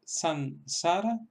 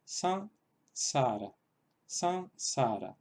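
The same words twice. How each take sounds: First: San, sara with a full clear n; san, sara, the n sounded as a consonant; plain n sound. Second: San, sara with the a nasalized through the nose and no full n, the second time slow; san, sara with a nasal a instead of a full n; nasalized vowel. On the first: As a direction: say san, sara with a real n before the s. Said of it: "en lugar de san, sara". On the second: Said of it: "sería algo así como". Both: Shown as a demonstration.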